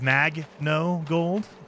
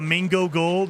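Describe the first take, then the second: First: The first word is said as 'mag-no'. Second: The first word sounds like the fruit 'mango'. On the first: The speaker calls it right. "instead of Mag No Gold" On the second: The speaker calls it wrong. "I pronounce it uh, Mango Gold"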